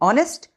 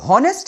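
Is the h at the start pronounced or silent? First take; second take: silent; pronounced. First: The word begins with a vowel sound. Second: The word begins with an h sound. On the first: The speaker calls it right. "इसको बोलते हैं ऑनेस्ट" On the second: The speaker calls it wrong. "इसको हॉनेस्ट नहीं बोलते"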